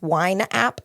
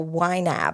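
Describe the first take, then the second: First: The name is said like 'wine app'. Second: The name is said like 'why nab'. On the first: The speaker calls it wrong. "Most people think it's wine app" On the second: The speaker calls it right. "everyone who uses it calls it Y NAB"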